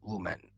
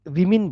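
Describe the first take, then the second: First: The first vowel sounds like the vowel in put. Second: The first vowel sounds like the vowel in sit. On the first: The speaker calls it wrong. "लेकिन उसको ऐसे नहीं बोलेंगे" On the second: The speaker calls it right. "इसको विमिन बोलते हैं"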